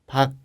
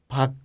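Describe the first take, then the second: First: The final consonant is short and unreleased. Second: The final consonant is short and unreleased.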